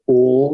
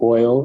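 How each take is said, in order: First: It is said in a Shreveport, Louisiana accent. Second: It is said in a general American accent.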